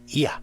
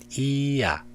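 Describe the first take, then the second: First: The opening i glides briefly and weakly into a. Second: The opening i is said clearly as its own vowel. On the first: The speaker calls it right. "the E here is not pronounced clearly, but rather appears very briefly and weakly. Uh, like this" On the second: The speaker calls it wrong.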